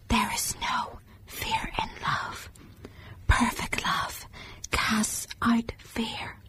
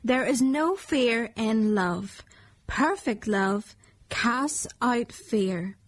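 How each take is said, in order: First: It is whispered quietly. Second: It is said loudly and strongly.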